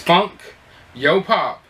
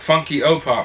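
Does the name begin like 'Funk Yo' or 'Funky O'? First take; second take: Funk Yo; Funky O. First: The name is split as Funk, Yo, Pop. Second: The name is split as Funky, O, Pop. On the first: The speaker calls it right. "No, it's Funk Yo Pop" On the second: The speaker calls it wrong. "Some people get it confused that you pronounce it Funky O Pop"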